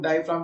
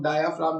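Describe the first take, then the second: First: डायफ्राम with no vowel between "dai" and "fraam"; two-part "dia" pronunciation. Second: डायाफ्राम with a clear "aa" before "fraam"; added middle vowel. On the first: Teacher showing students one common pronunciation, डायफ्राम said "dai-fraam". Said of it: "कई लोग डायफ्राम कहते हैं". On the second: Teacher showing students the other pronunciation, डायाफ्राम said "dai-aa-fraam". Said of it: "कई लोग डायाफ्राम कहते हैं". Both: Shown as a demonstration.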